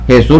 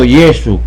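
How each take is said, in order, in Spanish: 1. El nombre se dice al estilo español moderno. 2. El nombre se dice al estilo latino antiguo. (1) "No se pronunciaba Jesús ni Jesucristo, eso salió después" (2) "en las misas en latín y se pronunciaba era esto"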